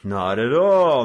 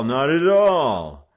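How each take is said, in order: First: Loud, slow, exaggerated courtesy; mock polite. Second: Very slow, loud sarcastic courtesy; mock polite, drawn out. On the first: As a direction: play the gentleman with menace. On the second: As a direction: stretch the politeness to mock them. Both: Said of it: "the leader responded politely".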